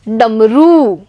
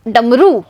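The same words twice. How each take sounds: First: The final vowel is a long 'oo'. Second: The final vowel is a short 'u'. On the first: The speaker calls it right. "र में बड़े ऊ की मात्रा रू" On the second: The speaker calls it wrong. "र में छोटे ऊ की मात्रा रू"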